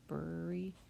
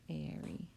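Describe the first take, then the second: First: The first vowel is an er sound. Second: The first vowel sounds like a long A. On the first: The speaker calls it wrong. "It's not the er sound. And once again, it's not Murray. Excuse me. It's not Bury" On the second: The speaker calls it right. "it sounds like the long A sound"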